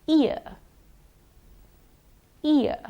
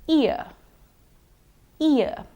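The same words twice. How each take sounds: Both takes have the same delivery.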